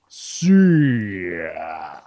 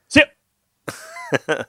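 First: It is said slowly. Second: It is said quickly.

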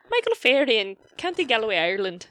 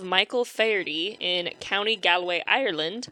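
First: It is said in a put-on Irish accent. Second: It is said in the speaker's ordinary accent.

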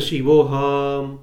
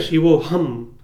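First: The word is said without that energy. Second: The word is said with full energy. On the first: The speaker calls it wrong. "that energy is gone" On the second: The speaker calls it right. "there is a certain energy that you feel"

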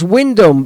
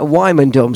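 First: The name is said the short way, Wyndham. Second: The name is said the long way, Wymondham. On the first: This is how the venue's town is said. "it's pronounced Wyndham" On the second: This is how the speaker's local village is said. "we pronounce that Wymondham"

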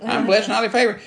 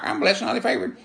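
First: It is said mechanically, like a squawking parrot. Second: It is said mechanically, like a squawking parrot.

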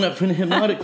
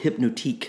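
First: The word ends with an English 'tick' sound. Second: The word ends with a French-style 'teek' sound.

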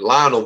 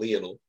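First: The name is pronounced the American way. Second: The name is pronounced the British way. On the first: "for our, you know, the Americans listening" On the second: "They always called him Lionel because they like from England or something"

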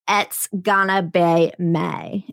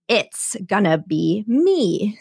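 First: 'It's' and 'me' are pronounced in an unusual way. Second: 'It's' and 'me' are pronounced in the ordinary way. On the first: This is how the song's lyric was meant to be delivered. "he wanted the lyrics to be sung in a very specific way" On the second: This is how people would ordinarily say it. "instead of"

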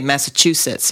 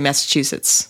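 First: The 'chu' syllable is pronounced fully and hard. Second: The 'chu' syllable is reduced and barely pronounced. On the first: The speaker is not from there. The speaker calls it wrong. "you wouldn't say Massachusetts if you lived in" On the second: The speaker is from there. The speaker calls it right. "I think you're supposed to skip the chew a little"

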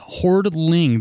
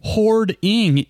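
First: The word has an L sound before -ing. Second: The word has no L sound before -ing. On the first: The speaker calls it wrong. "Every person says Hoardling" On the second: The speaker calls it right. "There's no L on this"

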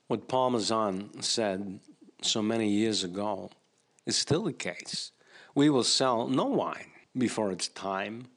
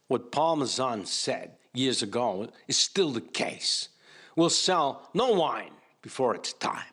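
First: It is read with little energy. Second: It is read with more energy.

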